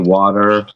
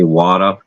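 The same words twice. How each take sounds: First: The final R sound is pronounced. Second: The final R sound is dropped. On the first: "we don't say water" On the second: "we say water, like W A T A"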